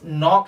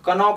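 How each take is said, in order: First: The word starts directly with the N sound. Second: A K sound is pronounced before the N. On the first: The speaker calls it right. "ये नॉक है सिर्फ, क्योंकि के इसमें silent है" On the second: The speaker calls it wrong. "कनॉक नहीं"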